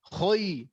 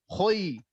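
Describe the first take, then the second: No difference in how they are said.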